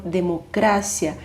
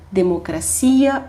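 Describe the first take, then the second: First: Democracia as "de-mo-CRA-sya"; stress on CRA. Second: Democracia as "de-mo-cra-CI-a"; stress on CI. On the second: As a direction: lean on the CI in democracia. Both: Shown as a demonstration. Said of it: "qual é a sílaba tônica".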